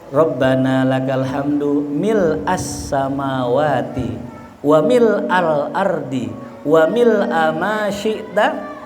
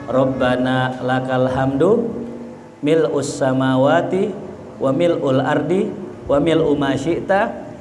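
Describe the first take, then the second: First: Each mil' is followed by an a vowel. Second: Each mil' is followed by a u vowel. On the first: The speaker calls it right. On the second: The speaker calls it wrong.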